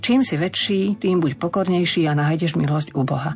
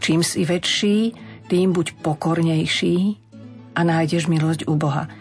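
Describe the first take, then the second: First: The verse runs together without pauses. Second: The verse is broken up with pauses. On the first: The verse sounds ordinary and loses its emphasis. The speaker calls it wrong. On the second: The verse keeps its dynamics and draws attention. The speaker calls it right.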